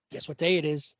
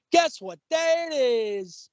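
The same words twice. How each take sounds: First: Said in the usual way. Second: High, very drawn-out taunting call; commercial camel. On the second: Retold or imitated. Co-host imitating camel from a commercial, high drawn-out call. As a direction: sing it out slowly, stretching the end. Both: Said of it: "hilarious commercial".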